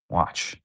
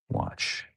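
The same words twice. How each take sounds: First: Said in the usual way. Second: Whispered, no voice at all. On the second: Shown as a demonstration. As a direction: breathe it like a secret warning. Teasing prediction to co-host.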